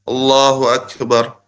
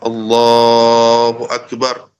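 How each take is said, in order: First: The phrase is said quickly and briefly. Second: The phrase is drawn out at length.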